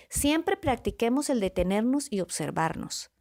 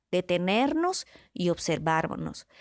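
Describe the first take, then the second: First: Said in the usual way. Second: Slow, each word laid down deliberately; slowed-down teaching repetition; slow emphatic repeat. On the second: Shown as a demonstration. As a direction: repeat it slowly so it sinks in.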